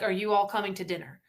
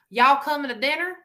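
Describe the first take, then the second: First: It is said with a northern accent. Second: It is said with a Carolina Southern accent.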